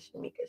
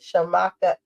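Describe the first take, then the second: First: The second syllable has an 'ee' vowel. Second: The second syllable has an 'ah' vowel. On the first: The speaker calls it wrong. "I keep saying Shamika" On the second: The speaker calls it right. "Shamaka Essentials"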